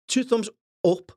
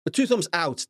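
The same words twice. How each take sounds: First: "two thumbs up" said high, the joke wrong take; high mock slip. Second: Said in the usual way. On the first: Shown as a demonstration. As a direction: pitch it up for the wrong version.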